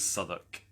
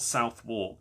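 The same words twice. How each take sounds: First: The middle sounds are dropped and shortened. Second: Every letter is sounded, as written. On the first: The speaker calls it right. "but it is Southwark" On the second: The speaker calls it wrong. "It's spelt Southwark, which has stupidly tripped me up before"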